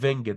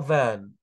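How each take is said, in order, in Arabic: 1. يُنطق صوت g وصوت t في آخر الكلمة. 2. الكلمة تنتهي بحركة أنفية، والحروف الساكنة لا تُنطق. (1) "محدش يقول فينجت غلط" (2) "نطقها فان"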